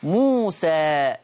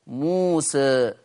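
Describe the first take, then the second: First: Slow موسى ending on an open a; موسى with a clean fath; fath reading. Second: Slow موسى with the final alif leaning toward e; موسى with a half-raised a; taqlil reading. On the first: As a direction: recite موسى slowly with an open final alif. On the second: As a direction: recite موسى slowly with a slight e tilt. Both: Shown as a demonstration. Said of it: "بالفتح والتقليل".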